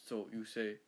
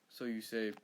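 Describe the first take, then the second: Both takes have the same delivery.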